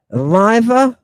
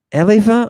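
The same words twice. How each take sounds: First: "Eliva" said as uh-LYE-vuh, a tentative first try; unsure pronunciation. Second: "Eliva" said as EH-lee-vuh, stress on EH; retry "Eliva" as EH-lee-vuh, short vowel first; second pronunciation. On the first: Lecturer testing a name aloud, uh-LYE-vuh. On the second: Lecturer retrying the name as EH-lee-vuh. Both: Shown as a demonstration. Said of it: "I'm not quite sure if I'm pronouncing that right".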